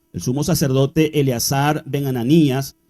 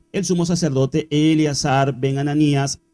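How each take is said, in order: Both takes have the same delivery.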